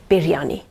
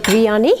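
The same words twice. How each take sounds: First: Biryani with the R rolled. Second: Biryani with a flat English r; wrong western biryani. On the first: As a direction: roll the R in biryani. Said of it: "you've got to roll the R". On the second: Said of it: "it's biryani". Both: Shown as a demonstration.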